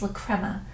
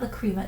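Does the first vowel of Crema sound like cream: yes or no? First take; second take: no; yes. First: The first vowel of Crema does not sound like cream. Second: The first vowel of Crema sounds like cream. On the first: The speaker calls it right. "it's La Crema" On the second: The speaker calls it wrong. "It's not La Crema ... I think of it as La Crema because it's so creamy"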